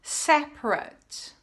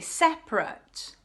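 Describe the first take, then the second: Both takes have the same delivery.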